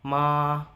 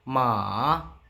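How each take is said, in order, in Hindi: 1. सुर ऊँचा और एक समान रहता है। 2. सुर नीचे जाता है और फिर ऊपर उठता है। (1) "फर्स्ट टोन आपके सामने है माँ, बिल्कुल सिंपल" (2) "नीचे लेके आए, उसको दोबारा ऊपर लेके जाना है"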